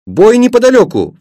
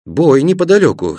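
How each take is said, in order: First: Put-on high, louder boyish exclamation; excited cry. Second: Said in the usual way. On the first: A narrator's reading. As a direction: call out the sudden news in a high voice. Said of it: "вскрикнул Пашка". (взволнованный вскрик) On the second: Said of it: "сказал и я".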